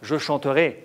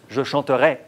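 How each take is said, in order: First: The final vowel is a closed e. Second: The final vowel is an open e. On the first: "E fermé" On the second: "E ouvert"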